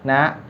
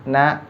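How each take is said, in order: No difference in how they are said.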